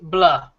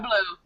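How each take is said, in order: First: The name is said with an 'ah' vowel. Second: The name is said with an 'oo' vowel. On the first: The speaker calls it right. "It's blah" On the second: The speaker calls it wrong. "not blue"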